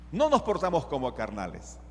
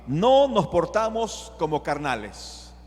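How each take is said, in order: First: Said in the usual way. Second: Slow declaration leaning on NO; emphatic NO. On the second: Acted. Preacher declares Paul's rule to the church, emphatic NO. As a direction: stretch NO, slow and firm. Verse declared, then repeated plainly.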